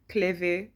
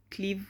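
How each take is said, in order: First: Cleve said as two syllables, KLAY-vay. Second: Cleve said as one syllable, KLEEV. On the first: Trying out a town's name, Cleve as KLAY-vay. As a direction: sound the final e in Cleve, KLEH-veh. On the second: Trying out a town's name, Cleve as KLEEV. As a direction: say Cleve to rhyme with leave. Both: Shown as a demonstration. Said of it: "I don't know how you pronounce that".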